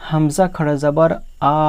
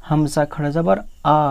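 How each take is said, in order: The two takes are said the same way.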